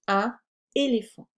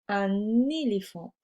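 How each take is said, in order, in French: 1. Le N n'est pas lié au mot suivant. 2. Le N est lié au mot suivant. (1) "plutôt que un éléphant" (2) "il est plus joli de dire un éléphant"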